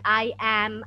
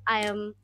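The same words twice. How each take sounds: First: Both words are said in full. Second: The words are contracted into one syllable. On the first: "the entire expression" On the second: "Instead, you say"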